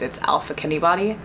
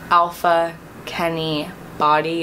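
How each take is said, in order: First: The phrase is said quickly, words running together. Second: The phrase is said at a slow, normal pace.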